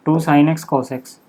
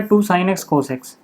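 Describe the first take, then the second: First: Drawn out term by term; slow dictation. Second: Each term drawn out slowly as it is written; slow dictation. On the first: Teacher repeating the formula for students: slow dictation. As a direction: say it slowly while writing it down. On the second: Teacher to class, writing the sin 2x formula: slow dictation. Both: Real, not acted.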